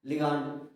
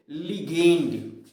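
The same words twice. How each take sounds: First: "लिगांड" with a long "aa" in the second syllable; "लिगांड", li-gaand, not li-gaynd; alternative pronunciation. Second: Slow, louder "लिगेंड" with a stretched "ay" vowel; drawn-out "लिगेंड", li-gaynd; chosen pronunciation. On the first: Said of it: "कुछ लोग लिगांड भी पढ़ते हैं". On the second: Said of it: "तो क्या पढ़ेंगे". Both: Shown as a demonstration.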